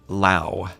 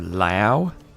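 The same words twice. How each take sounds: First: The name is said as one syllable. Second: The name is said as two syllables. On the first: "It's one syllable" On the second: "that comes out as two syllables for me. If, if you're like getting the L Y in there"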